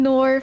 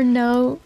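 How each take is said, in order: First: "nor" as New Zealand "no", the vowel drawn into "nor"; Kiwi "nor". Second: Said in the usual way. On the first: Shown as a demonstration. Streamer demoing Kiwi "no" as "nor". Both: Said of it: "for no".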